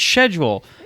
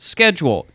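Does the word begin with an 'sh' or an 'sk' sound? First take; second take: sh; sk. First: The word begins with an 'sh' sound. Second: The word begins with an 'sk' sound. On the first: The speaker calls it wrong. "they say it like sh- schedule. That's wrong" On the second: The speaker calls it right. "The Texan lazy way is correct"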